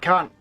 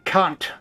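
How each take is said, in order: First: The final T is dropped, ending on N. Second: The final T is clearly and hard released.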